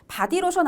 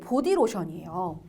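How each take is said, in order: First: The first vowel is a. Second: The first vowel is o. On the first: The speaker calls it wrong. "바디로션 아니고" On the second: The speaker calls it right.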